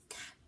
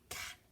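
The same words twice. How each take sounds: First: The word is whispered. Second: The same.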